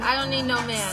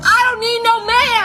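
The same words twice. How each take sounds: First: It is said at a quieter, plainer level. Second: It is said louder, with strong conviction.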